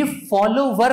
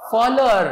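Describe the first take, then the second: First: फॉलोवर said fol-lo-var with a clear v sound; the wrong way to say फॉलोवर, sounding the v; wrong pronunciation. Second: फॉलोअर said fol-lo-ar with no v sound; the right way to say फॉलोअर, with no v; correct pronunciation. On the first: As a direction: say फॉलोवर the common mistaken way, with v. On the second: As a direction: say फॉलोअर with the w silent. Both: Shown as a demonstration. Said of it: "इसमें डब्ल्यू silent है".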